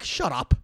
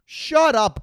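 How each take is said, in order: First: Said in the usual way. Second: Higher, louder snap; sharp shut up. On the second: Acted. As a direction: bark it at them. Repeated retort, louder.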